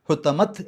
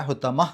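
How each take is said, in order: First: ഹുത്തമത്ത് ending on a sounded t; the wrong way to stop. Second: The right way to stop; correct pause ending. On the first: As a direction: say ഹുത്തമത്ത് with a full t. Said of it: "എന്നല്ല". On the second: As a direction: stop on ഹുത്തമ with a silent h. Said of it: "ഹ് എന്നുള്ള രൂപത്തിലാണ്". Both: Shown as a demonstration.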